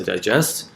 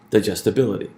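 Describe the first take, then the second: First: "digest" with stress on "gest"; model pronunciation. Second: "digestibility" with secondary stress on "di" and primary on "bil"; model pronunciation. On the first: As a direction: say "digest" as a verb, second syllable stressed. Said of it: "we know how to say digest". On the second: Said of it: "So that means we're gonna have digestibility". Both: Shown as a demonstration.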